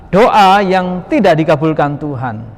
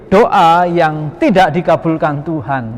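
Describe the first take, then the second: The two takes are said the same way.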